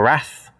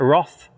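First: It is said with an American pronunciation. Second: It is said with a non-American pronunciation.

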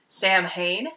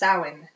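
First: The word is pronounced letter by letter. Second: The word is pronounced unlike its letters. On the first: The speaker calls it wrong. "You might see it written and think it's Samhain, because it's spelled S-A-M-H-A-I-N, but it's not" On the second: The speaker calls it right. "It is Samhain"

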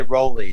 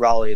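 First: The first vowel sounds like 'go'. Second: The first vowel sounds like 'law'. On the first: The speaker calls it wrong. "a lot of people say Rolly too" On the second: The speaker calls it right. "but Raleigh, like North Carolina"

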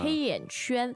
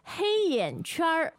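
First: The last syllable ends without an R sound. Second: The last syllable ends with an R sound. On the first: "But you can also not use the R sound" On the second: "Here we have R, the R sound"

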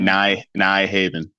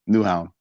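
First: It is pronounced the English way, as spelled. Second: It is pronounced the Danish way, shortened. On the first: The speaker calls it wrong. "if it's spelled out in" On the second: The speaker calls it right. "but in Danish we said Nuhan"

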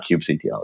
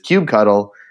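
First: The ending does not sound like 'cuddle'. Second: The ending sounds like the word 'cuddle'. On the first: The speaker calls it wrong. "It is not kubectl" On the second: The speaker calls it right. "Cuddle is the right answer. It is kubectl"

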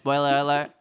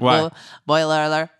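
First: The phrase is said at a fast pace. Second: The phrase is said at a slower pace. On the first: "But when I say it fast, it's like" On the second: "I can never say spoiler alert. I'm always like"

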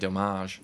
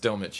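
First: The name is pronounced in a French way. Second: The name is pronounced in an English way. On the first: The speaker calls it wrong. "I keep on wanting to make him French and say Delmage" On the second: The speaker calls it right. "No, it's Delmage"

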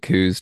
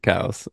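First: The vowel is an 'oo' sound, like 'coos'. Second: The vowel is an 'ow' sound, like 'cows'. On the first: This is the common habitual pronunciation. "I say coos just like out of habit and default" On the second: This is the pronunciation the namesake himself used. "maybe I'll start honoring him and pronouncing it cows"

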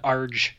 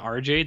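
First: It is said as one smooth syllable. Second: It is said as two separate letter names. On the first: "Like just the sound" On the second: "it's not two like consonant letters like RJ"

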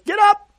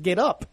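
First: It is said with lively enthusiasm. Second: It is said flatly, without enthusiasm.

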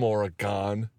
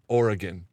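First: Oregon is pronounced in a non-local way. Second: Oregon is pronounced the way locals say it.

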